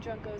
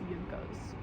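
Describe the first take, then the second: First: The word begins with a J sound. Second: The word begins with a Y sound. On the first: "I've been saying Junkos" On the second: "I've also heard them being pronounced Yunkos"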